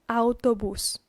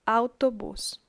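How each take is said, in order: No difference in how they are said.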